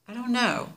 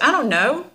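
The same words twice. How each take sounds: First: It is said in a mild, inoffensive tone. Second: It is said in a curt, offensive tone. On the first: The speaker is simply answering honestly. "then that's not offensive" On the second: The speaker is dismissive of the question. "then that's kind of offensive"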